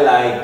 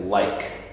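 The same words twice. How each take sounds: First: The final k sound is left off. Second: The final k sound is clearly pronounced. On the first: The speaker calls it wrong. "you consistently left off ending sounds" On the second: The speaker calls it right. "you need to say k"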